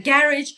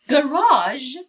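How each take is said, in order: First: "garage" said GARE-idge, stress on the first syllable, ending in a j sound; "garage" rhymes with carriage, British style. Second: "گاراژ" with a long ah and a zh sound, not a j; American garage. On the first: Teacher modelling the British "garage" for students, stress on first syllable. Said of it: "گرج یکی از تلفظهای بریتیشش هست". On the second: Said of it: "تلفظ امریکنش هست". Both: Shown as a demonstration.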